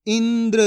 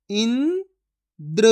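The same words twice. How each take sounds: First: Said in the usual way. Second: Indra split as "इं", long pause, "द्र"; syllable by syllable. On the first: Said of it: "तो मिलके बन जाएगा". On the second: Shown as a demonstration. Teacher sounds out Indra for learners, syllable by syllable. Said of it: "एक एक अक्षर का उच्चारण करके".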